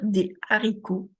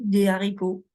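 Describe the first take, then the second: First: The phrase is said slowly with careful articulation. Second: The phrase is said quickly with little articulation. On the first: "Je n'allais pas trop vite" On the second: "Si j'étais allé vite, j'aurais dit"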